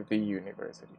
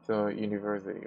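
First: The word 'the' is said with a long 'ee' vowel. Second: The word 'the' is said with a short 'uh' vowel. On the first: The speaker calls it wrong. "we don't say the university" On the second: The speaker calls it right. "So we say the university"

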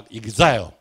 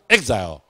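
First: The word is said with a Japanese accent. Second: The word is said with an American accent. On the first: "日本发音是读exile" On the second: "美国发音都爱读exile"

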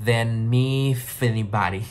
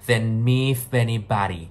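First: The words run together in one linked stream. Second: The words run together in one linked stream.

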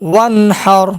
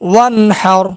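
First: The syllables are said joined in one flow. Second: The syllables are said joined in one flow.

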